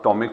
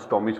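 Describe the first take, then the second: First: The word ends with a 'k' sound. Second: The word ends with a 'ch' sound. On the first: This is how someone who knows the term reads it. The speaker calls it right. "हम अगर स्टोमिक को पढ़ेंगे" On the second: This is how an outsider misreads the term. The speaker calls it wrong. "कोई दूसरा pronounce करेगा उसको, तो स्टोमिच पढ़ देगा"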